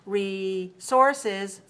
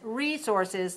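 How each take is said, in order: First: The stress is on the second syllable. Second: The stress is on the first syllable. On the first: "another way is resources, three two" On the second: "One is resources, three one"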